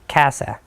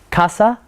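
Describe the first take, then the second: First: It is said with English pronunciation. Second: It is said with Spanish pronunciation.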